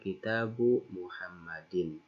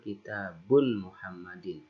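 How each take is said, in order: First: The first word ends in a plain vowel. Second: The first word ends with an added n sound. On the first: The speaker calls it right. "Tapi yang benar" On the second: The speaker calls it wrong. "Tidak boleh mengucapkan"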